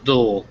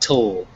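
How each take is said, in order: First: The syllable begins with a soft d sound. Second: The syllable begins with a crisp t sound. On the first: The speaker calls it right. "remember it's dull" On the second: The speaker calls it wrong. "not tull"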